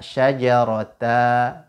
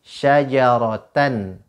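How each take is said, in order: First: The word ends in an open a vowel. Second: The word ends in an n sound.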